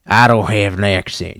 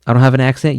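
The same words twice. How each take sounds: First: Playful Southern twang; put-on Southern accent. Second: Said in the usual way. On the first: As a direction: insist on it in a hammed-up Southern accent. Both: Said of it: "about this accent".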